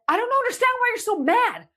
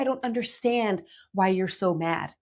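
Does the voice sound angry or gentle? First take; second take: angry; gentle. First: The tone is angry and harsh. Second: The tone is gentle and curious. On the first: The speaker is annoyed at the other's anger. "not in a" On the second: The speaker sincerely wants to understand. "do you hear what how I'm saying that? My tone here"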